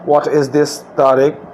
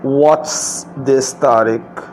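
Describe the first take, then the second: First: 'What is' is said as two full words. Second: 'What is' is joined into one word. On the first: "मैंने पहले व्हाट इज़ लगाया" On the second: "इज़ और व्हाट को साथ मिला दिया"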